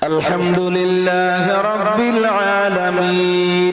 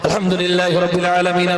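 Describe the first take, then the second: First: It is recited slowly and unhurriedly. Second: It is recited very fast and rushed. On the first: It shows proper care when addressing God. The speaker calls it right. "খুব ধীরে ধীরে পড়বেন।" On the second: It shows careless haste when addressing God. The speaker calls it wrong. "Five জি speed, রাজধানী এক্সপ্রেস।"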